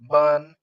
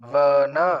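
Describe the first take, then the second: First: The word ends on a consonant, no final vowel. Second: The word ends with a short final a vowel. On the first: This is how Hindi speakers say it. "तो ऐसे हलंत कर देते हैं" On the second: This is how it is said in Sanskrit. "औकार के साथ ही उच्चारण करना पड़ेगा"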